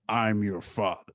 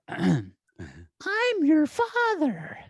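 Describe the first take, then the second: First: The voice is pitched low. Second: The voice is pitched high. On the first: The speaker calls it right. "It's lower" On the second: The speaker calls it wrong. "I was doing it too high"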